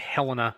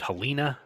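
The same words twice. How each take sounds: First: It is pronounced the way Midwesterners say it. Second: It is pronounced the way Southerners say it. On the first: This is the version that became standard. "Folks from the Midwest called it Helena" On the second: This is the version that did not catch on. "A lot of the Southerners tried to call it Helena"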